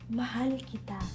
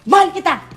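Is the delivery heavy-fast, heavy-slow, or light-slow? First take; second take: light-slow; heavy-fast. First: It is said lightly, indirectly and slowly. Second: It is said heavily, directly and fast.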